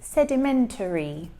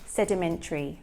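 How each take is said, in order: First: Every syllable is pronounced in full. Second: The final syllables merge into one shortened sound. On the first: The speaker calls it wrong. "he says sedimentary" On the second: The speaker calls it right. "We will shorten that last sound to say sedimentary"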